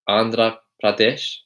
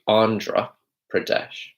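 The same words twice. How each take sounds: First: It is said with an Indian accent. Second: It is said with a British accent. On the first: "in the Indian accent it would be Andhra Pradesh" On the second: "but in the British accent it would be Andhra Pradesh"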